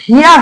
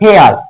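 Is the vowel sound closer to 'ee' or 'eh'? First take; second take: ee; eh. First: The vowel sounds like 'ee' before 'ar'. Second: The vowel sounds like 'eh' before 'ar'. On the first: The speaker calls it wrong. "এটার উচ্চারণ কিন্তু হিয়ার হবে না" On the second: The speaker calls it right. "এটার উচ্চারণ হবে হলো হেয়ার"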